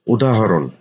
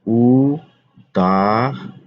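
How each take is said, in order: First: Said in the usual way. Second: উদাহরণ stretched very slowly with a rising end; drawn-out spelling. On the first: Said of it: "teacher repeats word slowly". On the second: Shown as a demonstration. Teacher to students, slowly stretching উদাহরণ. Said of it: "teacher stretches word for students".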